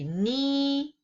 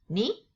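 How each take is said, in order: First: The pitch stays high and level. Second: The pitch rises from middle to high. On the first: "horizontal line on top of the letter I" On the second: "the second going up tone"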